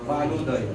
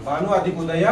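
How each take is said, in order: First: Bhanu दय, soft and low, the sandhi result; quietly giving the answer Bhanu दय; joined form said softly. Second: Said in the usual way. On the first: Shown as a demonstration. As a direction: land the joined word Bhanu दय gently.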